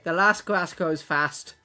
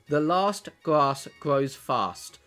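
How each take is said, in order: First: It is said in a northern English accent. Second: It is said in a southern English accent.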